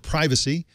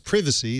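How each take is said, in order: First: It is said in a non-British way. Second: It is said in a British way.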